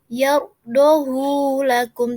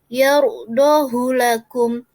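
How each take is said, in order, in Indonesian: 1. Vokal hu dibaca panjang. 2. Vokal hu dibaca pendek. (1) "tidak dibaca yardahu lakum" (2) "tetapi dibaca yardahu lakum"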